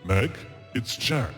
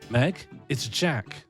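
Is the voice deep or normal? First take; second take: deep; normal. First: It is said in a deeper voice. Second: It is said in a normal voice.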